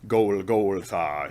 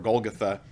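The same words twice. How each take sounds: First: The word is said in a harsh Klingon style. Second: The word is said in a plain everyday way.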